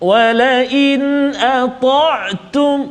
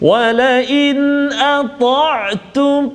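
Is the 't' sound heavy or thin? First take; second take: heavy; heavy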